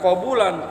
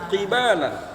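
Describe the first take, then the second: First: Both of the first two vowels are u. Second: The first vowel is i, the second a. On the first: "qabulan dibaca domatain" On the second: "ada yang baca dengan kasroh qafnya ki, dan baknya dibaca fathah"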